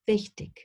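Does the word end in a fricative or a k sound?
k sound. The word ends in a hard k sound. This is a regional variant.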